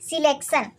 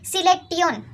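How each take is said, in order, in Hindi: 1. शब्द 'shun' की आवाज़ से खत्म होता है। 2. शब्द 'tee-yun' की आवाज़ से खत्म होता है। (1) "आप मन पढ़े हैं सिलेक्शन लेकिन ये गलत है" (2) "तो सही का है सिलेक्टियन"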